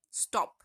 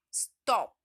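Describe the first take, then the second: First: Said in the usual way. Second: stop with the O punched loud; stress on the O. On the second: Shown as a demonstration. Teacher showing students the stressed O in stop. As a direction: lean hard on the O of stop. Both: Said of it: "तो हम ओ पे बहुत stress डालते हैं".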